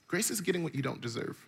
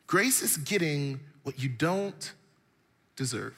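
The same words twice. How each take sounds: First: Said in the usual way. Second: Slow, each word weighed, with a pause before deserve; slow it right down and hold back deserve; slow emphatic repeat. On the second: Shown as a demonstration.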